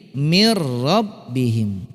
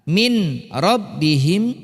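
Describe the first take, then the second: First: The n sound merges fully into the r. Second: The n sound is kept before the r. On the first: "menjadi mir rabbihim" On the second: "dileburkan nunnya"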